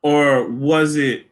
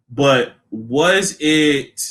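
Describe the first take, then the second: First: Was it slowly drawn out again, falling; drawn-out question. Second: Was it slowly drawn out, falling; drawn-out question. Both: Shown as a demonstration.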